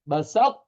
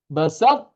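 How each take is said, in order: The two takes are said the same way.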